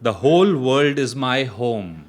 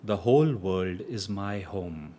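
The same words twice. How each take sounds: First: It is spoken loudly. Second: It is spoken at normal volume. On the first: "loudly at first" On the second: "in a normal voice"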